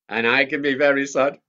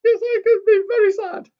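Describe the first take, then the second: First: Sung in the leader's own voice. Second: Much higher, louder puppet echo. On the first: Leader singing to children, own voice. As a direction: sing it plainly. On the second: Mickey the puppet echoing the leader, high and loud. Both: Acted.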